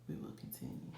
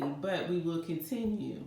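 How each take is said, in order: First: Breathy whisper, barely there. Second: Said in the usual way. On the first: Real, not acted. Shaken reader quietly insisting she'll continue, whispered. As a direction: say it under your breath.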